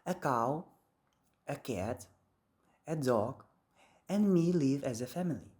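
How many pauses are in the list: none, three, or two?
three. There is a pause before "and me" too. "in American English, there is a pause between a dog and me"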